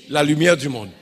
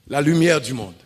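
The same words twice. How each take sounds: No difference in how they are said.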